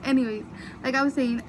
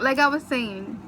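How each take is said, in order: First: Said in the usual way. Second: Louder, still laughing; trying to talk through giggles. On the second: Real, not acted. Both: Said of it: "I can't stop laughing".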